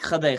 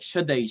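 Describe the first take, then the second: First: It starts with a guttural kh sound, Nangarhari style. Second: It starts with a soft sh sound, Helmand style.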